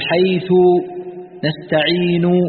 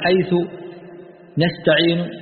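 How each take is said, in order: First: The final u vowel is fully voiced. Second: The final u vowel is weakened and faint. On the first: "الضمة تنطقها تقول" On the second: "إذا أتيت بالروم تقول"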